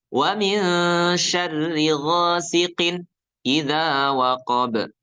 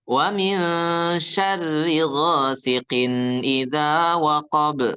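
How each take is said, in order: First: The sound breaks off after ghasiqin before idza. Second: The nasal sound carries smoothly from ghasiqin into idza. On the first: The speaker calls it wrong. "ini salah. Jangan diputus" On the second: The speaker calls it right. "begitu bacanya"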